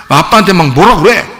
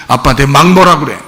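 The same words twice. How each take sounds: The two takes are said the same way.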